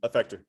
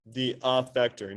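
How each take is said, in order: First: "affector" with a weak uh start, ə-FEK-tor; usual pronunciation. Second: "affector" with a flat a, like "aff-ector"; odd pronunciation. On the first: Teacher showing students how people really say "affector". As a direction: say "affector" casually, unstressed first vowel. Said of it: "They say it like this". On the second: Teacher stretching "affector" oddly for the class. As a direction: say "affector" with a short a as in "cat". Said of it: "nobody pronounces it like I just did". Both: Shown as a demonstration.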